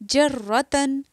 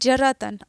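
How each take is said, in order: First: The r sound is doubled and held. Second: The r sound is single and short. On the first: The speaker calls it right. "एक जगह ये साकिन है और दूसरी जगह मुतहर्रिक है।" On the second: The speaker calls it wrong. "हम क्या पढ़ते हैं?"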